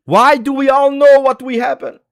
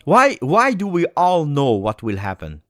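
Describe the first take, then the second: First: Much higher and louder, a desperate wail; anguished cry. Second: Said in the usual way. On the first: Real, not acted. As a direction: cry out the question in despair. Fan repeats in anguish.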